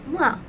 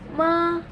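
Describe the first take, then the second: First: The pitch falls sharply from high to low. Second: The pitch dips low and then rises. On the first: It means scold. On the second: It means horse.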